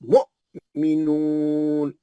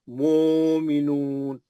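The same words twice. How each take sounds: First: The first syllable ends with a sharp glottal catch. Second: The first vowel is drawn out long, smoothly. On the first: The hamza carries the sukun and is read. The speaker calls it right. "हमजा के ऊपर है, तो झटका पड़ेगा" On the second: The word is read as if it had no hamza. The speaker calls it wrong. "जजम वाव पे आ गया तो मध्यस्थली हो जाता"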